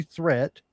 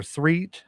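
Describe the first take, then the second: First: Said in the usual way. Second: "Threat" said with a long ee, like "threet"; alternative pronunciation. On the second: Shown as a demonstration. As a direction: offer "Threat" as "threet", unsure. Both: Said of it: "I'm not sure which way you".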